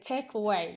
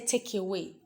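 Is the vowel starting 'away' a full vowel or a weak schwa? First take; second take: weak schwa; full vowel. First: The vowel starting away is a weak schwa. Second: The vowel starting away is full and unreduced. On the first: The speaker calls it right. "Say take away" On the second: The speaker calls it wrong. "So you don't say take away"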